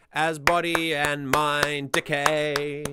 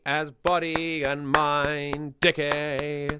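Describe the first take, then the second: First: Slow sung line with the stress shifted off "body"; right stress. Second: Slow sung line with stress on "body"; misplaced stress. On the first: A music reviewer demoing the correct lyric stress, slow and even. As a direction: let "body" fall light and lean on the beat. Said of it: "That's much better". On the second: A music reviewer demoing misplaced lyric stress, slow and stressed on "body". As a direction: stress "body" wrongly, dragging it slowly. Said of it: "That's weird". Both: Shown as a demonstration.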